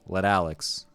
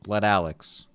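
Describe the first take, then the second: No difference in how they are said.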